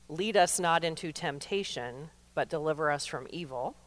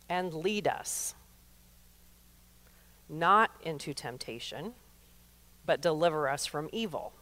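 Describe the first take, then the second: First: It runs straight on after "lead us." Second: There is a pause after "lead us."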